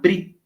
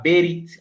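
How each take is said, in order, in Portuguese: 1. O b e o r se juntam, sem vogal. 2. Uma vogal curta se ouve entre o b e o r. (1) "e muitos hebraístas vão chamar Brit" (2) "Muitos hebraístas vão chamar Berit"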